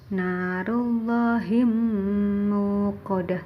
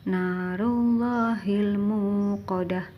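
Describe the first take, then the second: First: The L sound merges into the following M. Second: The L sound is pronounced clearly before the M. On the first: The speaker calls it wrong. "Tidak boleh" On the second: The speaker calls it right. "harus terang"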